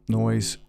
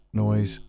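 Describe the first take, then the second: No difference in how they are said.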